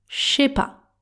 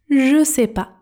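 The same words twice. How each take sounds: First: "Je" and "sais" merge into one "ch" sound. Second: "Ne" is dropped; "je" and "sais" stay separate. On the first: It is the fast, most informal version. "Le son j et s se transforment en ch quand ils entrent en contact" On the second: It is more informal. "devient je sais pas"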